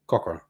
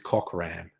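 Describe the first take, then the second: First: The name is said fast with weak vowels. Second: The name is said slowly with full vowels. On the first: The speaker calls it right. "you just say it really fast and not pronounce the vowels very strongly" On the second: The speaker calls it wrong. "You cannot say this is Cockram"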